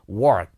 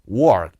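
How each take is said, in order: First: It is said with an American R sound. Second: The same.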